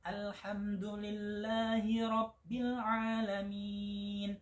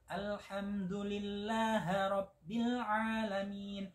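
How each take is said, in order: First: The syllable 'hi' after Alhamdulillah is pronounced. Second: The syllable 'hi' after Alhamdulillah is dropped. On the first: The speaker calls it right. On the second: The speaker calls it wrong.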